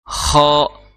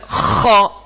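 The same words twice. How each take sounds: First: The kha sound is soft and light. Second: The kha sound is pushed out forcefully. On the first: The speaker calls it right. "Jadi cukup ah, ah" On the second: The speaker calls it wrong. "Jangan sampai bacanya kha ... itu kuat jadinya"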